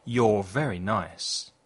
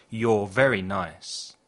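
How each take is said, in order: Both takes have the same delivery.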